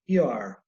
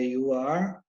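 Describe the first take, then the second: First: The words merge into one contracted syllable. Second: Two separate full words are said. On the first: The form most speakers commonly use. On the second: Used when listeners should hear each word clearly.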